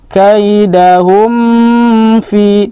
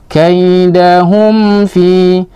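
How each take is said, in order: First: The m sound is held long before fi. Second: The m sound is released quickly and clearly. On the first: The speaker calls it wrong. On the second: The speaker calls it right.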